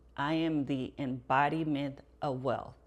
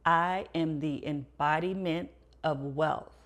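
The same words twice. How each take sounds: First: It is said plainly, without added confidence. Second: It is said firmly, with strong confidence.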